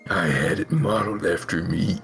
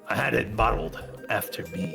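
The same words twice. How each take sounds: First: It is said in a put-on Venom voice. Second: It is said in a normal voice.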